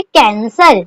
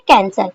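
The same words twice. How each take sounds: First: Slow example word. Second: Said in the usual way. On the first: Shown as a demonstration. Shorthand teacher giving her students the example cancel, slow and careful. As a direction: say cancel slowly, each syllable given its space. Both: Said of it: "मैं आपको एक word बता देती हूँ".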